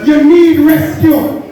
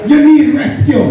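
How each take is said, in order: First: "need" leaned on, drawn out slower; slower preacher's echo with weight on "need"; slow emphatic repeat. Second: Said in the usual way. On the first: Shown as a demonstration. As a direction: press "need" slowly to drive it home.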